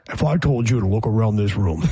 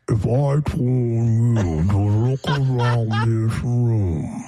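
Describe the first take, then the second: First: It is said at half speed. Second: It is said at quarter speed.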